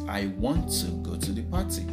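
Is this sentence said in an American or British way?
British. It is said the British way, with want to full. "But in British, it is"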